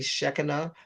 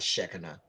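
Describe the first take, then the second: First: The name is said with an Aramaic-style pronunciation. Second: The name is said with an everyday English pronunciation.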